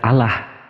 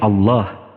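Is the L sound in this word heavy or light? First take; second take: light; heavy. First: The L sound is light and thin. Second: The L sound is heavy and thick. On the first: The speaker calls it wrong. "Tidak ada cara membacanya dalam bahasa asli" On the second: The speaker calls it right. "ditafkhim, tebal dia"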